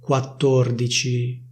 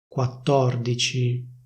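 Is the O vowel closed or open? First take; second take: closed; open. First: The O vowel is closed. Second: The O vowel is open. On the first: This is the standard pronunciation. "Non si dice quattordici" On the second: This is how it is said in Milan. "ma si dice quattordici"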